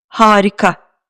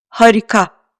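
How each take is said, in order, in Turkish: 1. İlk A ince ve biraz uzun okunuyor. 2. İlk A düz, kalın bir ünlü. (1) "harika kelimesindeki ilk A şapka kullanmadığı halde ince okunuyor" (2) "Eğer bu A ince okunmasaydı şöyle telaffuz ederdim"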